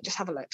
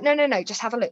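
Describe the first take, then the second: First: Said in the usual way. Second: Pushing, higher and louder; no, no, no, open it now; insistent urging. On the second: Retold or imitated. Fiancé eagerly pressing her to open the parcel, insistent.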